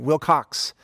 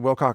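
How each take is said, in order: First: The name ends with a ks sound. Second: The name ends with a plain k sound. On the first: The speaker calls it wrong. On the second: The speaker calls it right.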